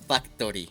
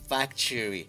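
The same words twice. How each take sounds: First: The middle consonant is a plain t sound. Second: The middle consonant sounds like a ch sound. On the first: The speaker calls it wrong. "no es factory" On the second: The speaker calls it right. "Es factory. Por eso puse la C H ahí"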